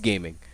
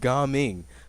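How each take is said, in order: First: It sounds like the English word 'gaming'. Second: It is said as two separate syllables, Ga Ming. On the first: The name is written as one word. "I'm gonna pronounce it the way that it's spelled" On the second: The name would be written as two parts. "If they just put a space between Ga and Ming"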